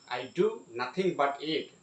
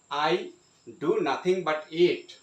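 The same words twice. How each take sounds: First: Said in the usual way. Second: "do" pushed out louder, falling; stress on do. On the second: Shown as a demonstration. Teacher showing the class a stressed "do". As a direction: lean hard on "do". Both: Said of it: "The emphasis is going on the second do".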